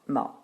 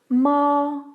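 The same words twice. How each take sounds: First: The pitch is light and unstressed, without contour. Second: The pitch stays high, long and flat. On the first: "Le ton léger se prononce tout simplement comme en français le mot ma" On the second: "Le premier ton se prononce à la quinte supérieure. Il est long et plat"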